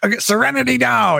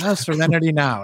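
First: It is said in an angry tone. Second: It is said in a calm tone.

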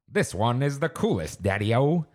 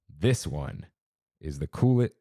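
First: It is read in a put-on old-timey voice. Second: It is read in a plain, normal voice.

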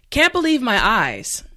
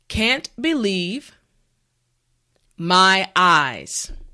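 First: The phrase is said at normal speed. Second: The phrase is said slowly and carefully. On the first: "now let's say it at a normal pace" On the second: "Now repeat after me"

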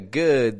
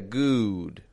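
First: The vowel is short and relaxed. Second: The vowel is a long, rounded ooh. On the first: The speaker calls it right. "instead of getting a good" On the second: The speaker calls it wrong. "they'll get a good"

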